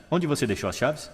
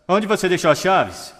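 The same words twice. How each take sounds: First: Said in the usual way. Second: Onde punched higher and louder, falling; stressed Onde. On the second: Shown as a demonstration. Speaker demonstrating tonality to an audience, Onde stressed loud and high. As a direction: hit Onde hard and exasperated. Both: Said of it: "apenas com a tonalidade".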